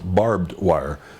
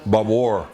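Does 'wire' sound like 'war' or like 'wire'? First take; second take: like wire; like war. First: Wire is said with its full standard vowel. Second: Wire is said so it sounds like war. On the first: The speaker calls it right. "before I knew that it was barbed wire" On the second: The speaker calls it wrong. "sometimes they said the wire like war"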